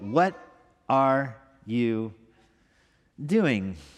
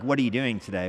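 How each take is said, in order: First: It is asked in an exasperated, disbelieving tone. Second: It is asked in a calm, casual tone.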